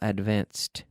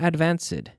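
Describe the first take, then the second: First: The ending adds no extra syllable. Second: The ending is said as an extra syllable. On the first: The speaker calls it right. "Ed, but no extra syllable" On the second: The speaker calls it wrong. "Not advanced. Eso no"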